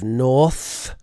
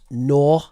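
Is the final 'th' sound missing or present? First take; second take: present; missing. First: The final 'th' sound is pronounced. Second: The final 'th' sound is dropped. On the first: The speaker calls it right. "instead of north" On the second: The speaker calls it wrong. "we had nor instead of north"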